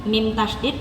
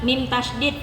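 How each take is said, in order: Both takes have the same delivery.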